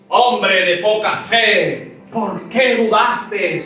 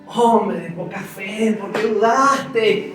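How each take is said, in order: First: It is said in an angry, scolding tone. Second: It is said in a gentle, affectionate tone.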